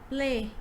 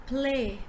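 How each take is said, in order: No difference in how they are said.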